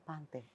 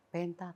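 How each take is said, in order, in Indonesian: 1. Vokal pertama terdengar seperti 'a' pada kata 'father'. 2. Vokal pertama terdengar seperti 'e' pada kata 'pen'.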